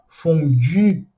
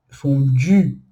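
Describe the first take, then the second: No difference in how they are said.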